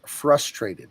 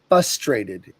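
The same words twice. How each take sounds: First: The first R sound is pronounced. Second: The first R sound is left out. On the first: The speaker calls it right. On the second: The speaker calls it wrong.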